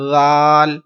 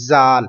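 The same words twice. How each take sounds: First: زال with a soft th as in "this", no whistle; lisped, unwhistled first sound in زال; soft dhal. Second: زال mispronounced with a hard whistling z; wrong whistled reading. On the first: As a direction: start زال gently with tongue tip to teeth. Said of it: "زال کو آپ نے کیسے پڑھنا ہے؟". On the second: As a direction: hiss the z at the start of زال, as a mistake. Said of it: "یہ غلط ہو جائے گا". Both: Shown as a demonstration.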